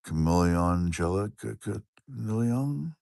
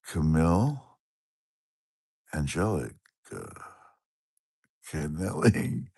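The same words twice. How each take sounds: First: Put-on slow, deliberate "Camille Angelica Camille Young"; reading the viewer's full name slowly; slow careful reading. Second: Sounding out a viewer's name piece by piece. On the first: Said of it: "I think I just said it". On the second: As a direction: spell "Camille Angelica Canelli" out word by word. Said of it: "I should just think how to say it". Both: Shown as a demonstration.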